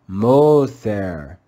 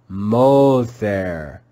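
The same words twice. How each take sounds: First: The first vowel is a long O sound. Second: The same.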